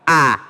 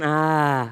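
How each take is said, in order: First: The vowel starts with a firm, pressed catch. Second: The vowel is soft and breathy, without pressure. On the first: The speaker calls it right. "tapi a" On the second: The speaker calls it wrong. "Bukan ah"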